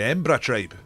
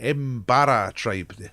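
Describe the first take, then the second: First: The name is said quickly and run together. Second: The name is said slowly with every syllable.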